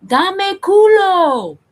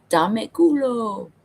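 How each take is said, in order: First: Very high, loud, slow drawn-out yell; yelled across store. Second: Slower, higher, lightly voiced coworker saying it back; a casual, drawn-out repeat of the phrase. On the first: Retold or imitated. Yelling to a coworker across the store, a loud drawn-out call. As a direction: belt it across the whole store, stretching every syllable. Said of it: "you wanna yell". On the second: Coworker calmly repeating the phrase, slow and higher. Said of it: "he's like".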